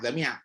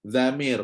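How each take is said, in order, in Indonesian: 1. Nama itu berakhir dengan bunyi 'ak', tanpa r. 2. Nama itu berakhir dengan bunyi r yang jelas. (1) "Orang tak panggil Zamiak" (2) "orang panggil Zamir. Sebut roh bagi betul-betul"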